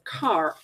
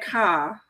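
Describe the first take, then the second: First: The r sound at the end is pronounced. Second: The r sound at the end is dropped. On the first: "instead of car" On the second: "since we're from New England and we always say car"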